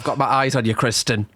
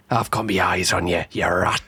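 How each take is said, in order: First: Said in the usual way. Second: Much lower-pitched mock threat; mock menacing warning. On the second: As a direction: drop low to warn a traitor. Repeats the warning, accusing Kristen.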